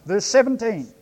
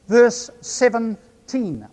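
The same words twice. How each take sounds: First: Said in the usual way. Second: "Verse seventeen" spoken slowly, each sound clear; said carefully. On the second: Shown as a demonstration. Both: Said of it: "say it carefully so that my New Zealand accent doesn't obscure".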